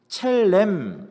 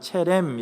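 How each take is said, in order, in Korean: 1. 이 이름은 가운데에 이중 L 소리가 있습니다. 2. 이 이름은 가운데에 단일 R 소리가 있습니다. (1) "원래 발음은 첼렘입니다" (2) "그냥 체렘 이렇게 쓰는데요"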